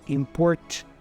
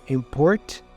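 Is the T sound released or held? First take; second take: released; released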